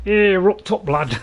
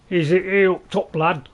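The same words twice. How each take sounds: First: "Here up top, lad" said cleanly in a broad Northern English accent, higher and louder; confident Northern English demo. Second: A fumbled first go at Northern English "up top, lad"; louder, stumbling Northern English demo. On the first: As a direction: land the Northern English phrase proudly. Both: Shown as a demonstration. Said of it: "as we say in, uh, you know, in North England".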